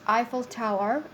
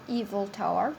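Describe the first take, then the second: First: The first word begins with an 'eye' sound. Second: The first word begins with an 'ee' sound. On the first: The speaker calls it right. "it is Eiffel Tower" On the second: The speaker calls it wrong. "not Evil Tower"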